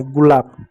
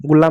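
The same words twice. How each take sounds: First: गुलाब said as "gulaab", ending in a b; right take, गुलाब with final b sound; corrected pronunciation. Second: गुलाब said as "gulaam", ending in an m; wrong take, गुलाब with final m sound; mispronounced word. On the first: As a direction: close गुलाब firmly on a b sound. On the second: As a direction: end गुलाब on a humming m instead of b. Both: Shown as a demonstration. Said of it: "गुलाब नहीं, गुलाब".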